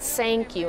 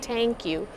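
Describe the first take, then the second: First: The first word starts with an S sound. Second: The first word starts with a T sound. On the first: "people will think you're making an S sound" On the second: "people will think that you're making a T sound"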